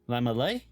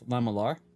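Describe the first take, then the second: First: The word ends without an R sound. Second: The word ends with an R sound.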